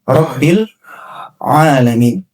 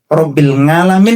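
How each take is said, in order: First: The second word begins with a throat sound. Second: The second word begins with an 'ng' sound. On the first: The speaker calls it right. "harusnya Robbil alamin" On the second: The speaker calls it wrong. "kalau mengucapkan ain itu nga"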